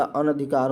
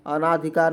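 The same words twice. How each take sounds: First: अनधिकार said "anadhikaar", with a short a after n; correct pronunciation. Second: अनाधिकार said "anaadhikaar", with a long aa after n; the mistaken form अनाधिकार, an-aa-dhikaar; wrong pronunciation. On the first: Teacher gives the correct अनधिकार with a short a. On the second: Teacher says the common mistake अनाधिकार with a long aa. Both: Shown as a demonstration. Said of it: "अनाधिकार नहीं होता".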